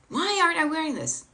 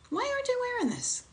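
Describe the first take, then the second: First: It sounds harsh and judgmental. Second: It sounds open and curious.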